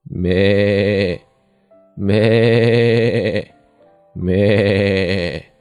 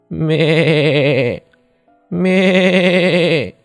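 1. 声音更饱满的咩叫，模仿大羊。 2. 轻一点的咩叫，模仿小羊。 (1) "下面是学大羊叫" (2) "我们先学小羊叫"

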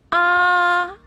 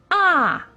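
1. 音高保持在高处，平平不变。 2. 音高从高急速降到低。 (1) "一声平" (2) "四声降"

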